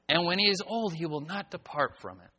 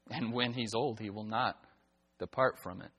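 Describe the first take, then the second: First: The tone sounds positive and encouraging. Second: The tone sounds grave and warning. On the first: It is a positive instruction to follow. "listen to the change in the tone of my voice" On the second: It is a warning about a bad outcome. "It's really more a warning than it is a positive source of instruction"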